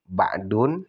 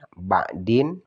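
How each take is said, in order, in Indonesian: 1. Kata ini berakhir dengan bunyi -un. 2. Kata ini berakhir dengan bunyi -in.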